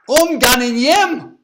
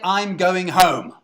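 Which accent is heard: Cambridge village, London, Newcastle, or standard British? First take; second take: Newcastle; standard British. First: It is said in a Newcastle accent. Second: It is said in a standard educated British accent. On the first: "Newcastle, they say" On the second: "Receive pronunciation"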